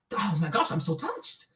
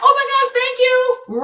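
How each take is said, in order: First: Much lower, soft, hammed-up emotion; mock touched. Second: High, loud gushing "oh my gosh"; over-the-top sweetness to escape; gushing thanks. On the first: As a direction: fake being moved. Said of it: "I act like I'm". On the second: Retold or imitated.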